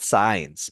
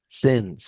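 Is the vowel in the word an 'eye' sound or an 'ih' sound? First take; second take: eye; ih. First: The vowel is an 'eye' sound, like science. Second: The vowel is a short 'ih' sound. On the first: The speaker calls it wrong. "the most common mistake ... No, it's not science" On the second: The speaker calls it right. "It's since"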